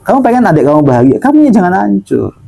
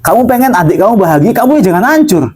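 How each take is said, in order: First: Faster repeat, a little less high; brisk second telling of "kamu ya jangan hancur"; quick restatement. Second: Raised high, pressing each word; first insistent high-pitched telling, "jangan hancur" driven up; emphatic correction. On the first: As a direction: rattle it off again quickly to drive it home. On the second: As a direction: correct them firmly, voice climbing high. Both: Shown as a demonstration.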